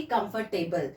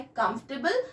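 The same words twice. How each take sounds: First: कंफर्टेबल as "com-fur-tay-bul"; wrong pronunciation. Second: कंफर्टेबल as "kumf-tuh-bul"; correct pronunciation. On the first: Teacher warns what not to say, wrong pronunciation. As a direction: sound every part of कंफर्टेबल, with "fur". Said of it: "ना कि कंफर्टेबल". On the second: Teacher tells learners what to say, correct pronunciation. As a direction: cut the "or" sound from कंफर्टेबल. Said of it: "हमें इसे बोलना है". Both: Shown as a demonstration.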